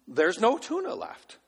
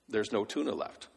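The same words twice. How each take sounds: First: Put-on tuna lifted high in a kid's wail; imitated boy; high child whine. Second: Said in the usual way. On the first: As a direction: whine it like the toddler. Child voice repeat. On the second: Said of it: "repeats in child voice".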